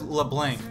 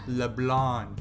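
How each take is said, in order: First: The name is said with English-style sounds. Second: The name is said with French-style sounds. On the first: "I always think about it as LeBlanc" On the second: "when they pronounce it in the game, it's LeBlanc. You know, because it's French"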